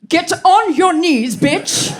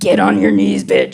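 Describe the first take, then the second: First: It is delivered in a grand, theatrical way. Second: It is delivered in a creepy, menacing way. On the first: "A little less Shakespearean" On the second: "A little less Freddy Krueger"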